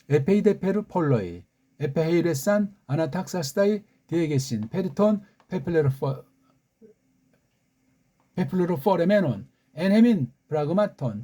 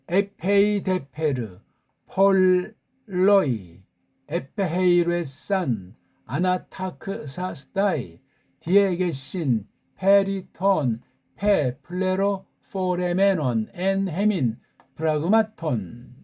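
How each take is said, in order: First: It is read at normal speed. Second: It is read slowly.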